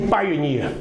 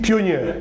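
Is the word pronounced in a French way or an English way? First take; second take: English; French. First: It is pronounced the English way. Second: It is pronounced like the French word. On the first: The speaker calls it right. "dans le dictionnaire, on dit pioneer" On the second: The speaker calls it wrong. "Vous aurez pu dire pionnier"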